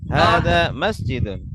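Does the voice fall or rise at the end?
falls. The voice falls at the end like a statement. It states what the thing is. The speaker calls it right.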